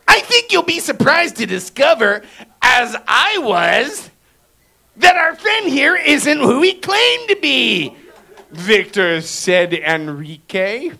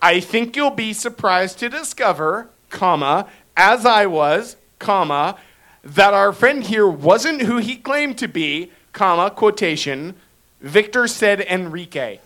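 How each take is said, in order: First: It is read in a put-on character voice. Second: It is read in his regular speaking voice.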